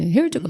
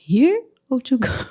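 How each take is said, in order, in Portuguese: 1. Ela é dita muito rápido e emendada. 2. Ela é dita devagar, com cada palavra clara. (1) "Bem rápido" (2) "Aí ele falou mais devagar"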